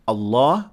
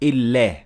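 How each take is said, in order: First: The L is heavy, said with a full mouth. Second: The L is light, said with an empty mouth. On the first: "we will not say Allah" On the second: "the lam in the word Allah will be empty mouth"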